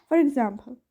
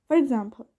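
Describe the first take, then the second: The two takes are said the same way.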